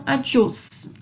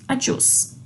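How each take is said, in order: First: Said in the usual way. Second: Adiós breathed softly without voice; whispered adiós. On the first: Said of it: "Então". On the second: Shown as a demonstration. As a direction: whisper adiós after the spoken take. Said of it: "o acento não necessariamente determina a entonação". (adiós sussurrado)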